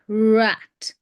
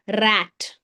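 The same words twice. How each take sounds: First: The r is smooth with no tongue vibration. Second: The r is trilled with a vibrating tongue. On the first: The speaker calls it right. "It's er, er, er. That's the sound" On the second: The speaker calls it wrong. "I have seen kids speaking like this"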